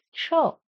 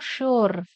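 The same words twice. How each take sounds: First: "sure" as sho, silent r; correct pronunciation. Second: "sure" as shoor, final r sounded; mistaken pronunciation. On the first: Teacher corrects the students' word, "sure" without r. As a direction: say "sure" with open vowel, no r. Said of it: "It is sure". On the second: Teacher shows students what to avoid, "sure" with clear r. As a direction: pronounce the r in "sure". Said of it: "Not sure". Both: Shown as a demonstration.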